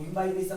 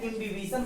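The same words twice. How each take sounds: First: इम्बाइबिशन pronounced im-BAI-bi-shan; variant pronunciation. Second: इम्बिबिशन pronounced im-bi-BI-shan, no "bai"; variant pronunciation. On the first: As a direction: say इम्बाइबिशन with a long "bai" in the middle. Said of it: "कुछ लोग इम्बाइबिशन बोलते हैं". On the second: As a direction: say इम्बिबिशन with short "bi" in the middle. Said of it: "कुछ लोग बोलते हैं". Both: Shown as a demonstration.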